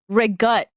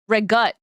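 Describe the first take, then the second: First: The word is said the Italian-American way. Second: The word is said the Italian-American way.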